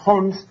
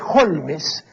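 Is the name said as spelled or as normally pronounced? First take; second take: as pronounced; as spelled. First: The name is said the way it sounds. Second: The name is read out letter by letter. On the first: "se pronuncia" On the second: "se escribe"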